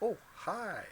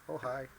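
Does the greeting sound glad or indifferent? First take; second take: glad; indifferent. First: It sounds warm and glad. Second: It sounds flat, with the voice trailing off. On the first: The person is happy to see you. "somebody's glad to see you" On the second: The person is just doing their own thing. "the voice trails"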